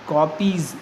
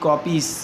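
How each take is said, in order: First: The word ends with a z sound. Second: The word ends with an s sound. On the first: The speaker calls it right. "कॉपीज़ ना कि" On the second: The speaker calls it wrong. "ना कि कॉपीस"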